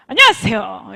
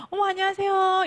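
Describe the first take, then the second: First: Loud, firm hello at normal pitch; confident greeting. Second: Simper the greeting in a high voice; gushing timid greeting. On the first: Coach showing the right way to greet, loud and confident. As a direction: project the greeting boldly and firmly. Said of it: "이렇게 해주시면 됩니다". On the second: Coach showing the wrong way to greet, high and gushy. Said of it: "이러시면 안 되는 거죠". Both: Shown as a demonstration.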